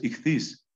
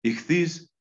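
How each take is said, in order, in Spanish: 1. La palabra se dice como 'ikhthys', con consonantes aspiradas. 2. La palabra se dice como 'ikhthys', con consonantes aspiradas.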